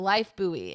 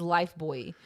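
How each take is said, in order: First: "Buoy" said like "boo-ee"; corrected pronunciation. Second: Put-on "Buoy" said like "boy"; tentative pronunciation. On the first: Host taking co-host's correction, "Buoy" as "boo-ee". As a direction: say "Buoy" in two syllables, boo-ee. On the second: Host reading a soap name, "Buoy" as "boy". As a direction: say "Buoy" as one syllable, rhyming with toy. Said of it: "Buoy or Boy?". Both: Shown as a demonstration.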